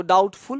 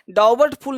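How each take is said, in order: First: "डाउटफुल" with no b; "डाउटफुल", gliding straight to t; silent b. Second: "डाउबटफुल" with the b voiced; b sounded. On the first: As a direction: say "डाउटफुल" with the b left out. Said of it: "इसको डाउटफुल पढ़ना है". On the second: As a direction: say "डाउबटफुल" as spelt, with b before t. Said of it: "डाउबटफुल नहीं पढ़ना है". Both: Shown as a demonstration.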